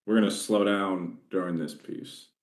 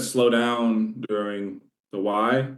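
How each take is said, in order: First: Said in the usual way. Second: Slowed right down. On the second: Shown as a demonstration. Sales trainer showing agents the pace, slowed right down. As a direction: draw the words out slowly.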